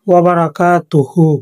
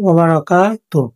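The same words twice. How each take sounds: First: The phrase ends with a short final vowel. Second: The phrase ends without its final vowel. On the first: This is the full form of the word. "এটা শব্দটা মূলত" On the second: This is how the word sounds when stopping on it. "এখানে যখন আমরা থামবো তখন উচ্চারিত হবে"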